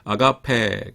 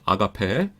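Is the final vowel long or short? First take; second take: long; short. First: The final vowel is long. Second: The final vowel is short. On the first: The speaker calls it right. "약간 길게 발음하셔야 돼요" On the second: The speaker calls it wrong. "아가페라고 하지 마시고"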